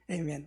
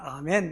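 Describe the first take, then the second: First: It is said with an American pronunciation. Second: It is said with a Korean pronunciation. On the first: "미국의 발음으로는 에이멘 그러더라고요" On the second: "우리는 아멘 이렇게 말합니다"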